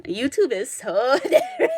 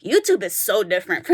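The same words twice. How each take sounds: First: Laughing through the words. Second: Said in the usual way. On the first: Real, not acted. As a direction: break into a laugh mid-line. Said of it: "repeats line, laughing". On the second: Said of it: "repeats line, second laughing".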